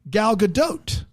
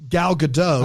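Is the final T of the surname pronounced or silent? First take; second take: pronounced; silent. First: The final T of the surname is pronounced. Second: The final T of the surname is silent. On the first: The speaker calls it right. "you pronounce the T at the end of it" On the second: The speaker calls it wrong. "we've been saying"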